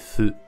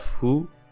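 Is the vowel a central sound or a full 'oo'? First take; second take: central; full oo. First: The vowel sits between 'oo' and 'e'. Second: The vowel is a full rounded 'oo'. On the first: The speaker calls it right. "Un peu entre le ou et le e" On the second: The speaker calls it wrong. "c'est pas fou"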